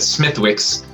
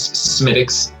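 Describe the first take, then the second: First: The name is said with th and w sounds. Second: The name is said as Smittix, without th or w. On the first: The speaker calls it wrong. "I always said Smithwick's" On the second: The speaker calls it right. "the correct pronunciation is Smittix"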